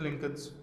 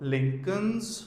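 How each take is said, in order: First: The word is said short with a plain s. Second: The word is drawn out longer before the s. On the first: It means more than one. "पर वो लहजा हो गया अ, उसमें plural वाला" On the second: It shows possession. "Word को थोड़ा लंबा खींचना है और साथ में साउंड एस का आएगा"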